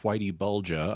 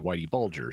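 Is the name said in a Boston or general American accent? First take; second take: Boston; General American. First: The name is said in a Boston accent. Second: The name is said in a general American accent. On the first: "I assume that's in your native Boston accent" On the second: "Most Americans I've heard would say Whitey Bulger"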